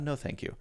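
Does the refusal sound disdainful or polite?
polite. It is said in a plain, polite tone. The offer is simply declined. The speaker calls it right.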